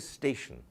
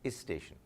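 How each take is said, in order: First: The word begins directly with the s sound. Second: A short vowel is added before the s sound. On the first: "they wouldn't say station" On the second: "They would say"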